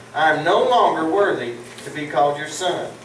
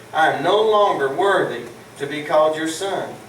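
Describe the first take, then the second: No difference in how they are said.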